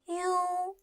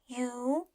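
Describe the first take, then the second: First: The pitch stays high and level. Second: The pitch rises from middle to high.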